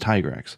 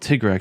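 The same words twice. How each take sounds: First: The first syllable sounds like 'tie'. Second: The first syllable sounds like 'tig'. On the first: The speaker calls it right. "no, it's Tigrex because it's Ty, Tyrannosaurus Rex" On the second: The speaker calls it wrong. "When I was calling it"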